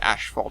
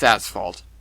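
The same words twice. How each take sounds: First: The first syllable sounds like 'ash'. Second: The first syllable sounds like 'ass'. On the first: The speaker calls it wrong. "People pronounce it asphalt and they're wrong" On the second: The speaker calls it right. "There's no ash in there"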